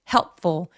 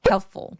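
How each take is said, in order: First: It is pushed out forcefully from the belly. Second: It is said lightly, without forceful push. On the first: The speaker calls it wrong. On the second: The speaker calls it right.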